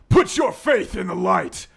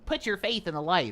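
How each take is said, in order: First: It is delivered loudly with strong energy. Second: It is delivered flatly with little energy.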